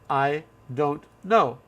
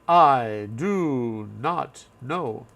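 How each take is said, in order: First: The negative is contracted into one syllable. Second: The negative is said as two full words. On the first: The speaker calls it right. "We would say" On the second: The speaker calls it wrong. "No one says that"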